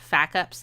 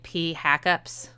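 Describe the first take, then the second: First: It begins with an F sound. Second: It begins with the letter name P.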